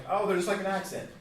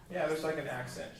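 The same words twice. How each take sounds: First: Put-on a higher, louder childlike brush-off; naive kid. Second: Said in the usual way. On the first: Teacher imitating his younger self, naively dismissive. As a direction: toss it off like a kid who thinks it's obvious. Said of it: "I'm like". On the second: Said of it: "when I was a kid".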